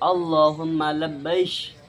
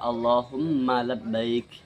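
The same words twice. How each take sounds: First: The last word ends with an sh sound. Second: The last word ends with a k sound. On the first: "mengganti huruf kaf dengan shin" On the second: "Maksudnya adalah"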